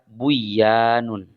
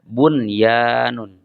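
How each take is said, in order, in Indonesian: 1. Huruf n sebelum y dihilangkan. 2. Huruf n sebelum y dibaca dengan jelas. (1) "Tidak dibaca buyanun" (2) "maka dibacanya bunyanun"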